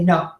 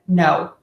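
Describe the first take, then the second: First: The vowel stays as one pure sound. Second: The vowel glides between two vowel sounds. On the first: The speaker calls it wrong. "most of my clients will say no" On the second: The speaker calls it right. "a combination of two vowels together"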